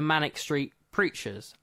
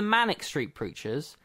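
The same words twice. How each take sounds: First: Manic Street forms one unit before preachers. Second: Manic stands apart; street preachers forms one unit. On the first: "as in they preach on Manic Street" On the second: They are manic and they are street preachers. "i.e. they are manic and street preachers"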